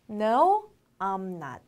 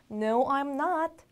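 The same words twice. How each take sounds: First: "No", pause, then "I'm not"; separated model. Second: Said in the usual way. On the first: Shown as a demonstration. Teacher modelling a negative answer, in separated pieces. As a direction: break the answer into two parts. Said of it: "아니면 어떻게 할까요?". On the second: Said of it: "한 번 더".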